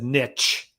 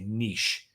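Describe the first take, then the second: First: The word is pronounced the American way. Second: The word is pronounced the British-Canadian way. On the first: "people in the U S said niche" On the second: "people like in Canada and the U K and elsewhere would say niche"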